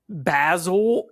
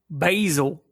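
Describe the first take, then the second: First: The name is said in a British accent. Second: The name is said in an American accent.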